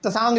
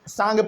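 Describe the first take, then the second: First: The word starts with a t sound. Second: The word starts with an s sound. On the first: The speaker calls it wrong. "बहुत लोग इसको अ, तसांग भी पढ़ते हैं" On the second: The speaker calls it right. "असल में इसको हम लोग सांग पढ़ते हैं, इसमें टी जो है वो साइलेंट रहता है"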